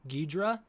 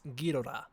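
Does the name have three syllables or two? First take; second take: two; three. First: The middle vowel is dropped, leaving two syllables. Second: The name is said with three full syllables. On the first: "that's how Americans usually say it" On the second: "in Japanese, the word is pronounced Ghidorah"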